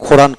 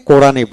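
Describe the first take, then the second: First: "কোরআন" mispronounced with an opening KH; wrong aspirated Q. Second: Said in the usual way. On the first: Shown as a demonstration. Teacher repeating a warning, showing the forbidden KH start. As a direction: begin "কোরআন" on a breathy খ instead of ক. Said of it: "কখনো বলবেন না". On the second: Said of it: "কোরআনটাকে কোরআনই বলবেন".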